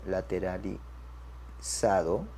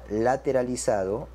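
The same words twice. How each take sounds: First: Very slow, low and soft, broken into syllables; dictation pace. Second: Said in the usual way. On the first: Shown as a demonstration. Teacher writes the result for students, dictation pace. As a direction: murmur it slowly as if writing.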